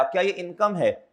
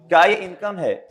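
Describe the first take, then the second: First: Said in the usual way. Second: "क्या ये income है?" asked again louder, pushing "ये"; pressed repeat. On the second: Shown as a demonstration. Teacher repeats the question to the class, more insistently. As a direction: press the question on "ये" the second time.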